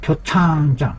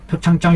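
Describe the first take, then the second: First: The syllable 창 is drawn out and bright. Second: The syllable 창 is short and flat. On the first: The speaker calls it right. "펼쳐지는 음으로써 읽어야 제대로 읽는 겁니다" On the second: The speaker calls it wrong. "표창장 이렇게 하면 안 돼요"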